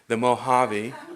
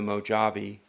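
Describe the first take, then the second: First: The name is pronounced differently from its spelling. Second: The name is pronounced the way it is spelled. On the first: The speaker calls it right. "it isn't how it is" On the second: The speaker calls it wrong. "when you said it wrong"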